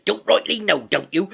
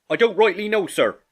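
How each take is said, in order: First: High, loud mocking retort; Silver scornfully echoing. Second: High, loud subordinate sailor; Morgan, cornered. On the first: A narrator's reading. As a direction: throw his words back at him. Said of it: "cried Long John". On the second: Acted. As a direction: plead ignorance to the boss in a raised pitch. Morgan answers under interrogation.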